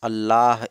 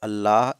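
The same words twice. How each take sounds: No difference in how they are said.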